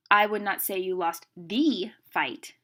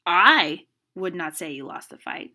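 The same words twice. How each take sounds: First: "the" said as a long, loud "thee"; stress on THE. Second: "I" long and loud, then a short pause; stress on I. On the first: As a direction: build to a punched "THE" before "fight". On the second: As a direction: punch "I", then let the rest drop. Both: Shown as a demonstration. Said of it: "put meaning and inflection behind the word".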